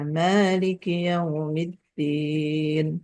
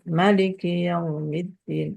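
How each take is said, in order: First: The first vowel of maliki is long. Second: The first vowel of maliki is short. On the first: This is the reading of two of the seven readers. "isbat alif" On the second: This is the reading of the other readers. "hadzful alif"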